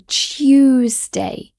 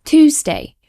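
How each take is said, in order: First: TUESDAY with a Y between T and U; British Y sound. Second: TUESDAY as tooz-day, no Y; American pronunciation. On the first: Teacher demonstrating the added Y in TUESDAY. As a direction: say Tuesday as tyoos-day. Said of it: "we add a Y sound". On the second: Teacher imitating Americans, TUESDAY without the Y. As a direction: say Tuesday with a plain oo. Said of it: "exactly as it's spelled". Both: Shown as a demonstration.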